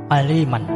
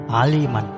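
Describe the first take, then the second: No difference in how they are said.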